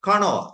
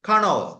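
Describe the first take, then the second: Both takes have the same delivery.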